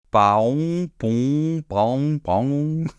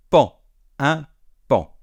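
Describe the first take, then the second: First: Playful wrong attempts at paon; wrong guesses. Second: Paon said pan, nasal an; right pronunciation. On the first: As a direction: act out learners guessing paon badly. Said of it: "Eh bien non". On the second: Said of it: "comme si ça s'écrivait P A N". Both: Shown as a demonstration.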